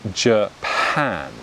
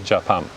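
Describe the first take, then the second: First: The stress falls on the second syllable. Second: Both syllables carry about equal stress. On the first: "I've unstressed the first syllable and I stress the second syllable" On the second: "the first syllable has a similar stress to the second syllable"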